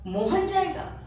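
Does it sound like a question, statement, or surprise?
surprise. It is said with a changed, astonished tune. It is astonishing that Mohan will go. "अपने उतार चढ़ाव को बदल दिया ... आश्चर्य को प्रकट करता है"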